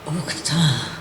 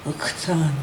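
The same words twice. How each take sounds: First: Whispered uktan, no voice at all; hushed whispered uktan in the chant. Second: Said in the usual way. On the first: Shown as a demonstration. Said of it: "in a whisper".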